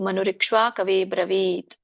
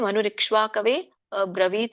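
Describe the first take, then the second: First: The 'a' is dropped, joining both words. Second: The 'a' before 'bravit' is clearly sounded.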